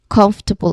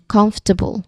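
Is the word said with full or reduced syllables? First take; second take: reduced; reduced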